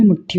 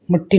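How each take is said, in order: First: मुट्ठी as "mutthi", with a puff; aspirated ṭha. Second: मुट्ठी as "mutti", no puff on the ṭ; unaspirated ṭa. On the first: (मुट्ठी में "ठ" साफ़ बोलें) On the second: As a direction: keep the middle of मुट्ठी unaspirated. (मुट्ठी को "मुट्टी" बोलें) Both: Shown as a demonstration. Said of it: "टा और ठा संबंधित".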